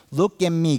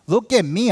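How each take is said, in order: First: "Look at me" with weight on "Look", falling, a touch smug. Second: "Look at me" pushed higher and louder, rising on "at"; boastful look at me. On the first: Pastor mimics a churchgoer, settled smug tone. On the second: Pastor mimics a churchgoer showing off, loud boast. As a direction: show off loudly, calling for eyes on you. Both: Retold or imitated. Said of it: "It comes like this".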